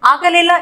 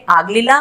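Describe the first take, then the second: First: Said in the usual way. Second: ಆಗಲಿಲ್ಲ contracted to "aaglilla"; local colloquial pronunciation. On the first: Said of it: "इसको हम local accent में बोलेंगे". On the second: Shown as a demonstration. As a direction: drop the vowel after the g in ಆಗಲಿಲ್ಲ. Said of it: "local accent में बोलेंगे".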